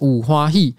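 It is said in Taiwanese Hokkien.

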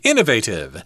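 It is said the American way.

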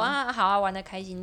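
It sounds sincere and well-meaning.

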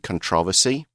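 It is said the way British people usually say it. "I hear that from British people"

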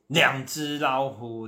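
It is said in an angry, hostile tone. The listener is treated as an enemy. "那讲到那种愤怒敌对"

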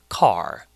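It is said in an American accent. "whereas in American English it would be car"

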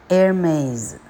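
The name is said with an American accent. "美语Hermes"

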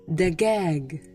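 The word has hard g sounds. "埃及人会说dagag"

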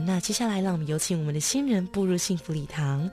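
It is gentle, soft and slow.

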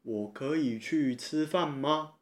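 The voice rises at the end, asking permission.

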